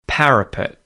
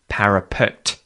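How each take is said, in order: First: The final T is held and not released. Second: The final T is clearly released. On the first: The speaker calls it right. "the tongue stops in the position where that T is made and it doesn't release" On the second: The speaker calls it wrong. "Instead of"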